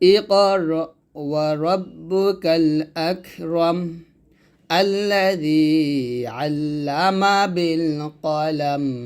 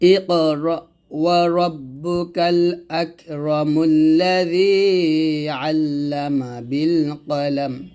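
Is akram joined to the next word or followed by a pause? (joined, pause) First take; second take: pause; joined. First: There is a stop right after akram. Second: Akram runs straight into the next word. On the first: The reader stops at the end of the verse. "ওয়াকফ করলে মিমটা সাকিন হয়ে যাবে" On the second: The two verses are read as one. "যদি আমরা দুইটা আয়াত মিল করে পড়তাম তাহলে বলতাম"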